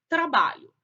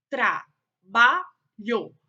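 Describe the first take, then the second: First: Said in the usual way. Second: "trabalho" very slow and loud, tra-ba-lho; syllable by syllable. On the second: Shown as a demonstration. Teacher showing pupils syllable division, "trabalho" in separated syllables. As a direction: split "trabalho" into three syllables with clear pauses. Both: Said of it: "foram separadas em sílabas".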